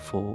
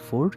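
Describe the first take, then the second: First: It ends on a vowel with no r. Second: It ends with a clear r sound. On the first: This is how the British say it. "ব্রিটিশরা করে ফো" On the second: This is how Americans say it. "আমেরিকানরা করে ফোর"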